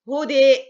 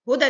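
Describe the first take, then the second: First: The final vowel is long and leans toward e. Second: The final vowel is short and plain, without leaning. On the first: The reciter stops on this word. "لو أنا هجف على كلمة هدى هعمل فيها إمالة" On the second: The word runs on into the next word. "سقطت الألف وصلا"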